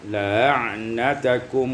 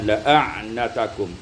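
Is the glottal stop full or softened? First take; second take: softened; full. First: The glottal stop is softened. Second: The glottal stop is fully pronounced. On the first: "yaitu bitashil hamzah" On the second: "boleh juga ditahqiqkan hamzah"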